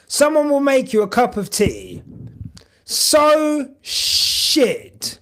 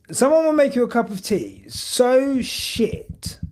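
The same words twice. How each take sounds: First: High, loud mock outrage; exaggerated complaint. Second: Said in the usual way. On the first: Real, not acted. To stream chat about bad tea, high and loud. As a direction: overplay the disgust, pitched up.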